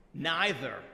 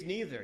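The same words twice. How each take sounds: First: "Neither" with an eye vowel first; "Neither" as NYE-ther. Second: "neither" with a long ee first; "neither" as NEE-ther. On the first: Storyteller weighing two ways to say it, "Neither" as NYE-ther. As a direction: say "Neither" to start like "nigh". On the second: Storyteller weighing two ways to say it, "neither" as NEE-ther. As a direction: say "neither" to start like "knee". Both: Shown as a demonstration. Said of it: "You say neither or neither".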